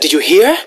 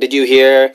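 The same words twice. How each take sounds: First: It is said with strong emotion. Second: It is said flatly, without emotion.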